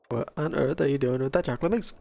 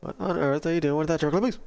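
First: The line is said slowly. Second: The line is said fast.

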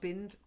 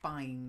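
First: The vowel is short, as in 'bin'. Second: The vowel is long, as in 'fine'. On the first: The speaker calls it wrong. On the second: The speaker calls it right.

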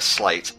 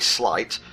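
First: The vowel rhymes with 'bait'. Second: The vowel rhymes with 'bite'. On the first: "or a slate" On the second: "I say slight because it's sleight of hand"

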